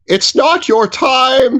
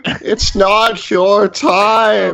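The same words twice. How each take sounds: First: Solemn. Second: Slower, fading solemn repeat. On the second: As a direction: let the words hang gently. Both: Acted. Gnome comforts his frightened friend.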